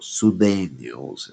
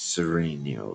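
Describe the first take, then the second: First: The name is said the way members themselves say it. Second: The name is said in an everyday outsider pronunciation.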